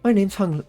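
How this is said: The voice is pitched very high.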